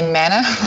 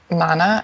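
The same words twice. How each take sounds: First: The word is said with a non-New Zealand pronunciation. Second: The word is said with a New Zealand pronunciation. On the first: "you guys say Mana" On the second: "as I guess Kiwis pronounce it"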